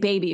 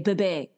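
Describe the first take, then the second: First: The word has its ordinary English vowels. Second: The word has altered, unusual vowels. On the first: "instead of saying baby" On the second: "she'll say bebe"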